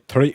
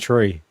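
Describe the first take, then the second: First: It is said in a Scottish accent. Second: It is said in an Irish accent. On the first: "The the Scottish people say three" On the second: "It's only the Irish people that say three"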